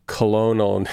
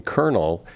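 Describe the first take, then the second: First: Colonel sounded as it is spelled, kol-oh-nel. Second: Colonel said the normal way, like kernel; usual colonel. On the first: Mocking the spelling, saying colonel as kol-oh-nel. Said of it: "It was never". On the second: Showing how people say colonel now, like kernel. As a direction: say "colonel" as kernel, two syllables. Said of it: "somebody started saying colonel". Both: Shown as a demonstration.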